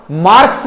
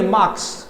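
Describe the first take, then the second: First: मार्क्स with the R sounded, "marks"; wrong pronunciation. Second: मार्क्स with a silent R, "maaks"; correct pronunciation. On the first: Teacher showing students what to avoid, R pronounced. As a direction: show the R in मार्क्स. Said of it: "मार्क्स नहीं बोलेंगे". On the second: Teacher correcting students, R-less pronunciation. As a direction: drop the R in मार्क्स. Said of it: "आपके बाद रहे आता ही नहीं". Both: Shown as a demonstration.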